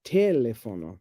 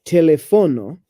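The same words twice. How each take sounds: First: Teléfono stressed on TE, pitched lower; wrong first-syllable stress. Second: Teléfono stressed on FO, te-le-FO-no; wrong stress. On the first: Showing partner the mistake, teléfono stressed on TE. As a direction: hit TE in teléfono, TE-le-fo-no. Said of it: "And it's not te-, teléfono". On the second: Showing partner what nobody says, teléfono stressed on FO. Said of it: "Because you don't say teléfono". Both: Shown as a demonstration.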